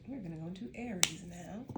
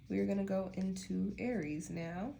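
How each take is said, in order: First: Softer echo of the odd lilt, "now" lifting; repeating odd intonation. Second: "Aries now" in an odd lilt, rising to finish; odd intonation. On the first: Retold or imitated. Reader echoing her own odd announcement, softer, "now" rising. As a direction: quietly replay the line with "Aries now" swinging upward. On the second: Real, not acted. Reader announcing the next sign to viewers, oddly lilted with "now" rising. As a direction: stretch the line out, lifting at the end of "now". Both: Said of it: "I don't know why I said it like that".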